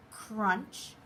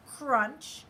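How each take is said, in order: Both takes have the same delivery.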